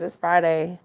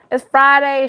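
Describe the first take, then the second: First: Said in the usual way. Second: Excited Friday. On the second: Real, not acted. Repeated, louder higher.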